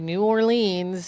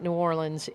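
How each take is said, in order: First: The name is said the Massachusetts town's way. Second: The name is said the Louisiana city's way. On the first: It names the town in Massachusetts. "I'm going to say it this way, New Orleans in Massachusetts" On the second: It names the city in Louisiana. "not New Orleans in other place"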